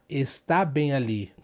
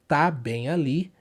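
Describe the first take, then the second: First: The first word is said in full, two syllables. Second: The first word is shortened to one syllable. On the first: This is the formal written form. "We almost never say like that in a regular conversation" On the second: This is everyday casual speech. "another abbreviation"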